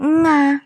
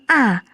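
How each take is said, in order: First: The sound begins with a nasal ng. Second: The vowel is plain, without throat constriction. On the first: "bukan juga nga" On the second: "Jadi bukan a"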